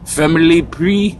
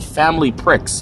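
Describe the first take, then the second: First: The last word sounds like French 'pree'. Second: The last word sounds like English 'pricks'. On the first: This is how the locals say the name. "I know that to them, that's the, ... Family Prix" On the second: This is how an English reader sees the name. "And I'm English, so that store is called Family Pricks"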